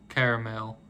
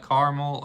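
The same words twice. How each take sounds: First: "caramel" as CARE-uh-mel, three syllables. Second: "caramel" as CAR-mul, two syllables. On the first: Asking viewers which way they say it, "caramel" as CARE-uh-mel. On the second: Asking viewers which way they say it, "caramel" as CAR-mul. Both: Shown as a demonstration. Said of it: "how you say it".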